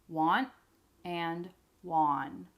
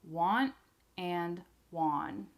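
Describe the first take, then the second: No difference in how they are said.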